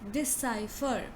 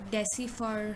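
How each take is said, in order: First: The middle syllable sounds like 'sigh'. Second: The middle syllable does not sound like 'sigh'. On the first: The speaker calls it right. "the correct pronunciation of this word is decipher... So you say di first, then you say sigh, then you say fur" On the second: The speaker calls it wrong. "a lot of people maybe will pronounce it as uh, decipher or something like this"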